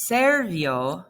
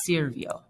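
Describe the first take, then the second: First: "servio" с гласной «э» в первом слоге; неверная форма. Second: "sirvió" с гласной «и» в первом слоге; верная форма. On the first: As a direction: say "servio" slowly with a clear E, as SER-vio. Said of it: "So instead of saying". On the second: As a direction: say "sirvió" with I in place of E, as SIR-vio. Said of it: "we're gonna make it". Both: Shown as a demonstration.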